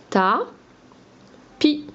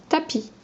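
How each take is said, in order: First: "Ta, pi" with a long gap between the beats; split into syllables. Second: Said in the usual way. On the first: Shown as a demonstration. Teacher sounding out the word for pupils, "Ta, pi" in separate syllables. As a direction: say "Ta", pause, then "pi". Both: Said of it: "j'ai enlevé la première syllabe".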